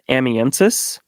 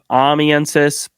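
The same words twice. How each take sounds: First: The first syllable has a short 'a' sound. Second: The first syllable sounds like 'Amy'. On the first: This is the speaker's own habitual way. "The way that I've always said it is amiensis. ... with my Midwestern twang ... added that a a sound to it" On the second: This is how other people often say it. "So I hear a lot of amiensis. ... Ami, like more like Amy"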